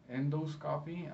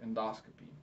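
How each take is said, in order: First: Endoscopy as END-oh-SCOP-ee, each part separate; mispronounced endoscopy. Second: Endoscopy as en-DOS-kuh-pee, stress on DOS; correct endoscopy. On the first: Teacher showing her own habitual slip, endoscopy said as END-oh-scoppy. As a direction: say endoscopy like "endo" plus "scoppy". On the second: Teacher giving the right pronunciation, endoscopy as en-DOS-kuh-pee. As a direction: say endoscopy with the weight on the second syllable. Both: Shown as a demonstration. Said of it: "the right pronunciation is".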